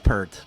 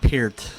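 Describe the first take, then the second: First: It sounds like the shampoo name Pert. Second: It does not sound like the shampoo name. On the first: The speaker calls it wrong. "not Pert. Pert is a shampoo" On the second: The speaker calls it right. "Peart is the actual pronunciation of his name"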